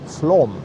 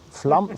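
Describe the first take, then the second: First: The vowel sounds like a stressed 'o'. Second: The vowel sounds like an 'a'. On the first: "Ein betontes O" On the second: "Spricht man das Flamm auch aus? Das ist ja so ein A mit so einem Kringel da drüber"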